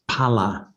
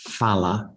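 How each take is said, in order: First: The word begins with a breathy P sound. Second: The word begins with an F sound. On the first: The speaker calls it right. "So it's pala as a result" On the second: The speaker calls it wrong. "not phala, ... pronounce it with an F"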